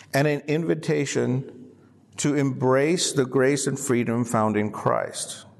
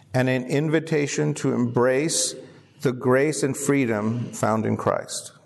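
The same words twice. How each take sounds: Both takes have the same delivery.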